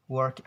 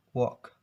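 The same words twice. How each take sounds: First: "work" with a strong r in the vowel; American pronunciation. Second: "work" with no r sound, almost wawk; R-less British pronunciation. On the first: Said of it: "work in American accents". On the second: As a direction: say "work" British style, dropping the r. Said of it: "In British". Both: Shown as a demonstration.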